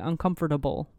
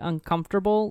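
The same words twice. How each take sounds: First: The word is said with four syllables in comfortable. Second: The word is said with three syllables in comfortable. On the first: This is an unusual personal pronunciation. "Lainey adds an extra syllable" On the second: This is how most people say it. "like everyone else in the world"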